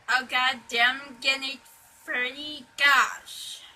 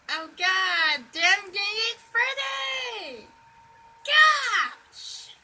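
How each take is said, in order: First: It is said plainly and calmly. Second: It is said in Levi Chipmunk's rage.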